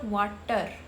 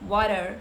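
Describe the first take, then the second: First: The middle T is a hard T sound. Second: The middle T is a soft, fast D. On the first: The speaker calls it wrong. "It's not water" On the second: The speaker calls it right. "so it is ada sound. So it would sound like water"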